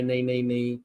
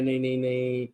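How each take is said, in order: First: Mock New Zealand denial. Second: Lower, softer mock of a nervous official saying "नहीं, नहीं, नहीं"; mock State Department denial. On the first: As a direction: lightly echo the same flustered refusal. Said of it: "अपना New Zealand भी बोल रहा है". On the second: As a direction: lightly imitate a flustered diplomat brushing it off. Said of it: "तो वो state department बोल रहा है".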